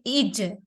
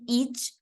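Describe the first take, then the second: First: The final j ends with a jerky bounce. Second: The final j ends plainly without a bounce. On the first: The speaker calls it right. "We bounce the letter of letter jim from the ending" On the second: The speaker calls it wrong. "instead of saying each"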